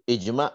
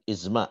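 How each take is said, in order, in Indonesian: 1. Konsonan tengahnya berbunyi j. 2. Konsonan tengahnya berbunyi z. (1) "Jadi ijma bukan izma ya" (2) "bukan izma"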